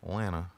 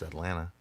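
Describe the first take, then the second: No difference in how they are said.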